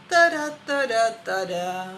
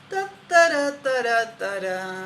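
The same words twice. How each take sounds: Both takes have the same delivery.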